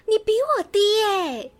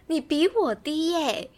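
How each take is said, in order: First: High, slow gasp of gleeful disbelief; gasping surprise. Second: A bit high, very slow and drawn-out gloat; gloating repeat. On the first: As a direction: stretch it out, delighted to catch her out. Teasing friend about her test score. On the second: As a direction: savour the words slowly to rub it in. Repeating the tease. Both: Real, not acted.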